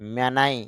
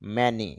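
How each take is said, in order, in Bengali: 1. স্বরধ্বনিগুলো হলো 'ay' এবং তারপর 'eye'। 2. স্বরধ্বনিগুলো হলো ছোট 'a' এবং তারপর 'ee'। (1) "M এ মে N আই নাই" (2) "ম, এ, তে মে, তারপর ন, ই"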